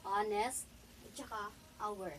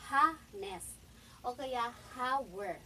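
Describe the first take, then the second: First: "honest" and "hour" with a silent H, starting on the vowel; correct pronunciation. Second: "ha-nest" and "ha-wer" said slowly with a spoken H; wrong pronunciation. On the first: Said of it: "ipopronounce mo siya as". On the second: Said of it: "hindi mo siya ipopronounce na". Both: Shown as a demonstration.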